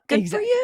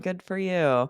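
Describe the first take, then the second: First: It is said with more emphasis and liveliness. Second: It is said flatly with little pitch movement. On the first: The speaker is genuinely happy for them. "emphasizing it more" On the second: The speaker is not really happy for them. "it is kinda flatter"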